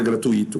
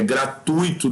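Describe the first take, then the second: First: "gratuito" wrongly as gra-tu-Í-to, stressed on i; hiatus u-í. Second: "gratuito" as gra-TUI-to, u gliding into i; diphthong ui. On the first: Teacher shows the common error, "gratuito" as gra-tu-Í-to. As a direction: break the vowels of "gratuito" and stress i. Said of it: "é gratuito". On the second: Teacher corrects a common error, "gratuito" as gra-TUI-to. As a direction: stress the u and glide in "gratuito". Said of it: "não é gratuito". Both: Shown as a demonstration.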